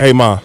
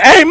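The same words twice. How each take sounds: First: It is said in an ordinary, regular voice. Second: It is said in Timmy Tube Socks' character voice.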